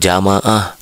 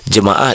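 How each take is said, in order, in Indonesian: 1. Suku kata pertama punya vokal 'a'. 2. Suku kata pertama punya vokal 'e'. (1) "bukan jamaah" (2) "jemaah itu bukan jamaah"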